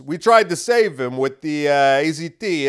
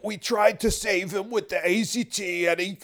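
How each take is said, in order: First: Louder, mocking official brush-off; a lightly voiced dismissive doctor, louder; loud mock excuse in a borrowed voice; mock Fauci voice. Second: Higher, strained put-on voice; strained, higher retry of the mocking impression; strained Fauci voice. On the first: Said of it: "doing that voice for Fauci". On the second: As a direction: push the pitch up into a hard-to-hold voice. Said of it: "it's really hard to do that voice".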